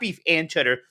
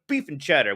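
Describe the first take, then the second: First: The word 'and' is said in full. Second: The word 'and' is cut to 'n'. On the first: The speaker calls it wrong. "not beef and cheddar" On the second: The speaker calls it right. "We don't have time for those other two letters"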